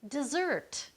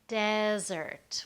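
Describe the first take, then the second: First: The stress is on the second syllable. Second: The stress is on the first syllable. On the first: It names the action of leaving someone. "stress the second part, and it becomes an action" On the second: It names a dry area. "where we stress the first part. That's a dry area"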